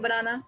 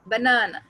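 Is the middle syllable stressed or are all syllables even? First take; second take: even; middle stressed. First: All syllables are said flat and even. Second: The middle syllable is stressed, the first quick. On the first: The speaker calls it wrong. "Simple बोलेंगे बनाना, तो वो भी गलत है" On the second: The speaker calls it right. "ब को हमने बहुत क्विक बोल दिया सिंपली, ना, बीच वाले ना को हमने स्ट्रेस दिया"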